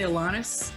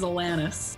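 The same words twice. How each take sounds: First: The name is said a different, non-Canadian way. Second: The name is said the Canadian way. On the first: "a lot of people say Alanis" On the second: "the Canadian version is Alanis"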